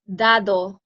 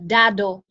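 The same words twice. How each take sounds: First: The d sounds are very soft, Spanish style. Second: The d sounds are hard, English style. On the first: "in Spanish, it's dado. So it's uh, very soft" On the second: "in English, they would pronounce it like"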